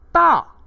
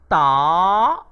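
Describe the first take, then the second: First: The pitch falls sharply from high. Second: The pitch rises from middle to high. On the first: It means big. "Bagi nada keempat pula dibunyikan sebagai ta" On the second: It means to arrive. "Bagi nada kedua pula dibunyikan sebagai ta"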